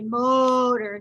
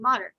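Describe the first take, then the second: First: The first vowel is drawn out long. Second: The first vowel is said quick and short. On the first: The speaker calls it wrong. "you don't say it long. You don't say modern" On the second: The speaker calls it right. "You just say it quick"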